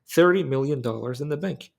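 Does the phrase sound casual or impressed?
casual. It sounds casual, as if it were ordinary. Having the money is nothing special. The speaker calls it right. "it's not that big of a deal"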